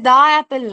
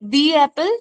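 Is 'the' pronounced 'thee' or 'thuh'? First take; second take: thuh; thee. First: 'The' is said with a short 'thuh' vowel. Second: 'The' is said with a long 'thee' vowel. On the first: The speaker calls it wrong. "এটা দা Apple নয়" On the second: The speaker calls it right.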